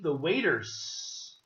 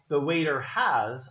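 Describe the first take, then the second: First: The verb is shortened onto the noun. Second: The verb 'has' is said as a full word. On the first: The speaker calls it right. "I'm going to say" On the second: The speaker calls it wrong. "I'm not going to say the waiter has"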